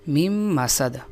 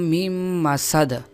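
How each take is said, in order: Both takes have the same delivery.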